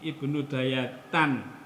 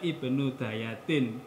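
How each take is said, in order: First: The last word ends with an a vowel. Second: The last word ends with an i vowel. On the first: The speaker calls it right. "tidak boleh dibaca" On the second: The speaker calls it wrong. "tidak boleh dibaca ibnu dayatin"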